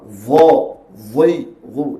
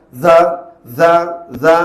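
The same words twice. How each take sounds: First: "Dha, dhi, dhu" heavy and held back, one by one; restrained ismat sound. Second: "Dha, dha, dha" short and quickly let go; wrong izlaq manner. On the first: Teacher shows the ismat quality, restrained heavy "Dha, dhi, dhu". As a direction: hold each of "Dha, dhi, dhu" before letting it out. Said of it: "tertegah daripada ia keluar". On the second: Teacher shows how not to read it, quick loud "Dha, dha, dha". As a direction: toss out "Dha, dha, dha" easily, with no holding back. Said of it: "tak baca macam sifat izlaq". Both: Shown as a demonstration.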